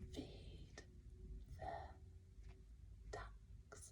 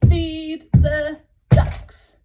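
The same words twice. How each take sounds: First: It is said at a quiet volume. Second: It is said at a loud volume.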